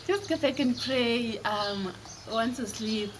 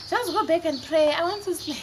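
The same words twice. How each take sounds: First: Said in the usual way. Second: Higher-pitched, mock-irritated mom; exasperated mom. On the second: Mom sends scared children back to bed, exasperated. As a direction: brush them off as a woken mother.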